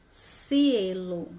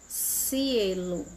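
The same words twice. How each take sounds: Both takes have the same delivery.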